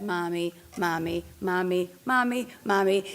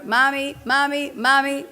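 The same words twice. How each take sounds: First: Put-on repeated child's call for mom; imitating a child calling Mommy. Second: Louder, higher mock kid calls; louder child calling Mommy. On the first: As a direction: call Mommy over and over like a kid. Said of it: "even when it said". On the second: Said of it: "Even when it gets louder".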